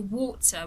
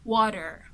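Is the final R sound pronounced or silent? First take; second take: silent; pronounced. First: The R at the end is silent. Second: The R at the end is pronounced. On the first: "someone from the U K would just say" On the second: "someone from the U S will say"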